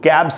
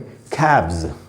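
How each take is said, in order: First: The word ends with an s sound. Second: The word ends with a z sound. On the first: The speaker calls it wrong. "इसको कैब्स नहीं पढ़ना चाहिए" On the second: The speaker calls it right. "यहाँ पर ऐसे ज बनेगा"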